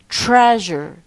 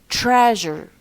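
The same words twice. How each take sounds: The two takes are said the same way.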